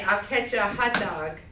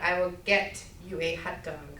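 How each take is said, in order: First: The words are slurred and run together. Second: Each word is said clearly and separately. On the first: The speaker calls it wrong. "We often say" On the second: The speaker calls it right. "instead of"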